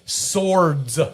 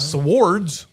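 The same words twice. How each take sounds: First: The W is silent in this word. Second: The W is clearly sounded in this word. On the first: The speaker calls it right. "the W is silent" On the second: The speaker calls it wrong. "except in your vocabulary"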